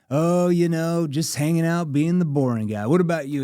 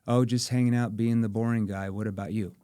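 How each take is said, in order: First: It is said in a playful tone. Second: It is said without a playful tone.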